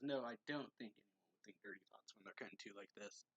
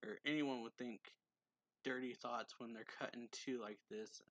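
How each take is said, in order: First: Lightly voiced flustered denial in a changed voice; hint of a defensive character; character's retort. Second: Said in the usual way. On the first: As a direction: brush it off in another voice. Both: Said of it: "Or says".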